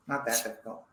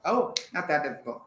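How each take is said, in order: First: Laughing. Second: Said in the usual way. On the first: Real, not acted. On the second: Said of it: "Oh, it's difficult".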